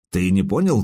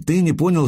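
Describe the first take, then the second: First: Said in the usual way. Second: ТЫ pitched high in "ты не понял"; stress on ТЫ. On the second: A narrator's reading. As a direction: throw the word ТЫ back at him. Turns his words back on him.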